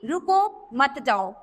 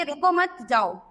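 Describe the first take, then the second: First: रुको set apart by a pause, then मत जाओ together; pause after रुको. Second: रुको मत run together, then a break before जाओ; pause after मत. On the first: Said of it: "विराम चिन्ह का प्रयोग गलत स्थान पर होने से अर्थ का अनर्थ". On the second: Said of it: "दोनों का अर्थ अलग हो गया ना". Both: Shown as a demonstration.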